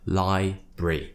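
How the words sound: The word is said in a British way. The speaker calls it right. "In British English"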